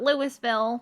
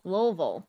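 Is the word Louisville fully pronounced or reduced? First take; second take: full; reduced. First: The word is said fully with every syllable. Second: The word is shortened with sounds swallowed. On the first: The speaker calls it wrong. "not Louisville" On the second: The speaker calls it right. "You swallow half the sentence when you're trying to say the word"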